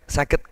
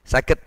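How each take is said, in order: No difference in how they are said.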